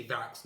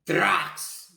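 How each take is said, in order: First: Said in the usual way. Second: Sudden, high-pitched blurted shout; one explosive, insanely loud word. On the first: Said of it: "normal, normal voice". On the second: Retold or imitated. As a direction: shout it out at full power. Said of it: "Really loud, insanely loud".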